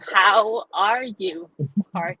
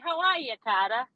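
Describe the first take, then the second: First: The R sounds in Carter are pronounced. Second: The R sounds in Carter are dropped.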